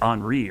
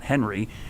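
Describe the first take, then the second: First: The name is said the French way. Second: The name is said the English way. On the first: The speaker calls it right. "it's Henri, right? Because it came from the French version" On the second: The speaker calls it wrong. "It's not Henry"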